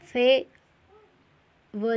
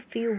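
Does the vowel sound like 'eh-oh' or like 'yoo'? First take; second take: eh-oh; yoo. First: The vowel sounds like 'eh' then 'oh'. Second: The vowel sounds like 'yoo'. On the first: The speaker calls it wrong. "नहीं बोलेंगे" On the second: The speaker calls it right. "इसको फ्यू बोलेंगे"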